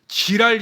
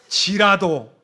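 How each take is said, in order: First: The final syllable is dropped, ending in 'l'. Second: The final syllable 'do' is clearly pronounced. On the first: It sounds like a crude swear word. The speaker calls it wrong. "지랄 신앙 이러면 안 됩니다" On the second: It means 'even though'. The speaker calls it right. "발음 잘 하셔야 돼요"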